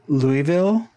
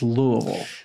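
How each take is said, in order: First: It uses a non-local pronunciation of the name. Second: It uses the local pronunciation of the name. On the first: The speaker is not from the city. The speaker calls it wrong. "you're talking to someone who's not from Louisville" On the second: The speaker is from the city. The speaker calls it right. "the local pronunciation is Louisville"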